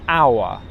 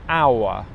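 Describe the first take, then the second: Both takes have the same delivery.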